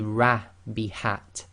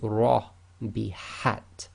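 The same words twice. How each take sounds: First: The r is light with a spread, smiling mouth. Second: The r is heavy with a full, rounded mouth. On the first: The speaker calls it wrong. "so you cannot say ra bihat" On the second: The speaker calls it right. "This is ra bihat"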